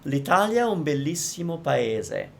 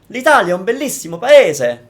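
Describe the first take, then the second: First: All syllables sound even and flat. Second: Syllables and vowels are heavily exaggerated. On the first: "Let's make it all flat so that all the syllables are the same" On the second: "Saying it in the exaggerated way that you might be saying"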